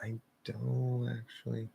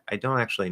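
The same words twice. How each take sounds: First: The phrase is said slowly with a nasal link. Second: The phrase is said quickly with a nasal link. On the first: The speaker calls it wrong. "I don't recommend doing it too slow" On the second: The speaker calls it right. "on like the faster end of normal"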